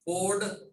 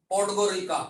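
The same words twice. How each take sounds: First: Podgorica in pieces with long pauses; syllable-by-syllable Podgorica. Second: Said in the usual way. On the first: Shown as a demonstration. Teacher drills Montenegro's capital, Podgorica split apart. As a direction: break Podgorica up for the class.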